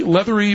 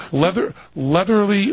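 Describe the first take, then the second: First: Leathery said properly, landing a little higher; corrected word. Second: Leatherly, stumbled over with an extra syllable; fumbled word. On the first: Host reading on air, correcting to leathery. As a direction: fix it to leathery. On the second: Host reading on air, stumbling over leatherly. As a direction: trip on leatherly before fixing it. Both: Shown as a demonstration. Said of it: "self-correction to leathery".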